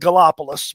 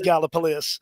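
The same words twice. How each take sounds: First: The name is said the way outsiders say it. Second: The name is said the way locals say it. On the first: This is how people from elsewhere say it. The speaker calls it wrong. "for the out of towners, they call it Gallipolis" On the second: This is how the town is really pronounced. The speaker calls it right. "it's actually pronounced Gallipolis"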